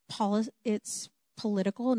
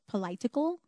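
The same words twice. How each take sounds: First: "political" said pah-LIT-ical, stress on the second syllable; the boy says "political" the right way; political with short o. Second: "political" said puh-LIE-tical, with a long i; the girl's wrong "political", with a long i; political mispronounced. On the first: Boy correcting a girl's speech in class, "political" said pah-LIT-ical. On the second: Boy mocks girl's reading, "political" as puh-LIE-tical. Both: Retold or imitated. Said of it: "and he says".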